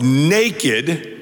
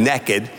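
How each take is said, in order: First: It is said in a standard accent. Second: It is said in a Southern accent.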